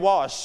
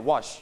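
First: "wash" with a drawn-out shhh at the end; "wash" ending in a long hiss of sh. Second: "wash" said as "watch", cut short; "wash" with a brief ch instead of sh; short ch ending. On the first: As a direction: stretch the sh in "wash". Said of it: "ถ้า C H ไม่ wash". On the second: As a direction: stop "wash" with a quick tch. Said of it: "เสียงสั้นนะ". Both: Shown as a demonstration.

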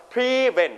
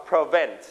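First: "prevent" with a long, high first syllable, PRE-vent; stress on first syllable. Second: "prevent" with the weight on VENT, pre-VENT; stress on second syllable. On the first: Teacher showing students the wrong way, "prevent" stressed on PRE. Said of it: "แบบนี้ ไม่ใช่นะครับ". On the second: Teacher modelling correct pronunciation for students, "prevent" stressed on VENT. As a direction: keep the start of "prevent" short, land on VENT. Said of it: "เราจะออกเสียงว่า". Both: Shown as a demonstration.

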